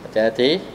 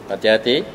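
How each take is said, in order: The two takes are said the same way.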